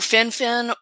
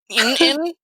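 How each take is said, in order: First: The name begins with an F sound. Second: The name begins directly with a vowel. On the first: "turned into an F sound" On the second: "vanished completely"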